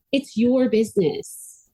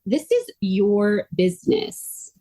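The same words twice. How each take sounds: First: Slow "It's your business." with "your" stressed and falling. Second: Slow "This is your business." with "is" lifted and rising; stress on is. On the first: Quoting Heather's mantra back to her, with "your" stressed and falling. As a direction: hit "your" firmly and drop. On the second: Quoting Heather's mantra back to her, with "is" stressed and rising. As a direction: lean on "is" and let it rise. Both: Retold or imitated. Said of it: "you continue to say".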